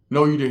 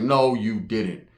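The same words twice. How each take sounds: First: Said in the usual way. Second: Drawn-out slow "No, you didn't"; slow low mock disbelief. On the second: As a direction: stretch "No" long in mock shock. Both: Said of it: "I was like".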